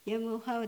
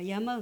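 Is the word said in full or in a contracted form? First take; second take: full; contracted. First: The word is said in full, with every syllable. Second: The middle sounds merge into a shorter word. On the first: "ヤムオハウだけど" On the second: "言う時は母はヤマウって言ってました"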